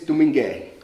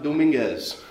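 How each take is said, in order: First: The name ends without a z sound. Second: The name ends with a z sound. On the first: The speaker calls it right. "Where the Z is actually silent" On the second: The speaker calls it wrong. "the name is not Dominguez"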